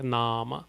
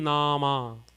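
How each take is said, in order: First: The first vowel is long, the second short. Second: Both vowels are long. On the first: "First A has a bar over it, second A doesn't have a bar over it" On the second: "If both the A's had a bar, it would have been"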